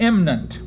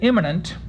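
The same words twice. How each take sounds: First: The word is said with a syllable dropped. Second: The word is said with all its syllables.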